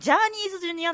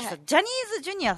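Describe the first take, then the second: First: The first vowel of the name is long. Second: The first vowel of the name is short. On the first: The speaker calls it wrong. "なんかちょっと沖縄なまりみたいな" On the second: The speaker calls it right. "ジャニーズだよって言ってもらって"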